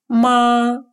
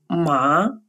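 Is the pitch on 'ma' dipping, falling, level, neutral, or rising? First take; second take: level; rising. First: The pitch stays high and level. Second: The pitch rises from mid to high. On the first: It means mother. "с первым тоном «ма» имеет значение «мама»" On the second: It means hemp. "со вторым тоном «ма» – это конопля"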